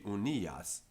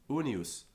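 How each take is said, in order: First: The middle vowel is said long. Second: The middle vowel is said short. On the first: This is the usual form. "where it would usually be" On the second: A poet has bent the normal length. "a long syllable can get shortened"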